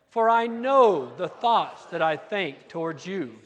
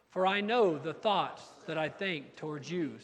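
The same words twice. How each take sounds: First: It is read with excitement and high energy. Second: It is read in a calm, low-energy way. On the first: "let's say it with some excitement and some gusto" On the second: "It usually takes us a couple times to get warmed up"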